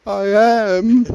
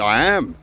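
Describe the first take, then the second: First: Tiny high squeak, no force behind it; meek, high and without belief; timid mouse. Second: Said with plain conviction; firm, self-assured demonstration; confident. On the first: Retold or imitated. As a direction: imitate mum squeaking it like a little mouse. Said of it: "Like a little mouse, see, with no belief". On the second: Shown as a demonstration. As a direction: state it as settled fact in your own voice. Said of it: "I say with confidence".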